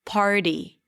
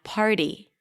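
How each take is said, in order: First: The middle consonant is a light D. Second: The middle consonant is a light D.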